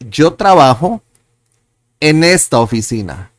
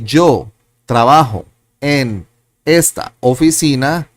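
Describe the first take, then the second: First: The words are linked smoothly in connected groups. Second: The words are said separately with small breaks.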